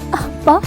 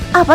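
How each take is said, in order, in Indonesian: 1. Dikatakan dengan nada sedih. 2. Dikatakan dengan nada meremehkan.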